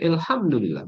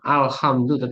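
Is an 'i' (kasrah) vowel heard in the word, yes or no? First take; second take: yes; no. First: The word is said with the kasrah i vowel. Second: The word is said without the kasrah i vowel. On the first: The speaker calls it right. "tapi ... bacanya gitu, kasrah ya, dialeknya gitu" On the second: The speaker calls it wrong.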